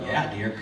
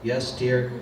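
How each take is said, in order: First: It sounds eager and enthusiastic. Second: It sounds dejected and resigned.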